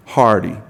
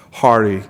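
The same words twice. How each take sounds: First: Hearty said again, louder and held; hearty repeated with a louder, warmer push; stressed repeat. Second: Said in the usual way. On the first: Real, not acted. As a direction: lean hard into the second hearty. Asks the room for applause.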